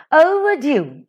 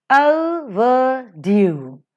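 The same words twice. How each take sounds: First: Said in the usual way. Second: "overdue" drawn out very slowly; slow teaching demo of "overdue", each syllable held. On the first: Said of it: "and due is stressed". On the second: Shown as a demonstration. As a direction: stretch "overdue" into o, ver, DUE. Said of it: "O is unstressed".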